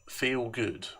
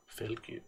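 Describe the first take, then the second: First: Said in the usual way. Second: Whispered lyric echo; whispered echo of the song. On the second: Acted. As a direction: breathe the words back.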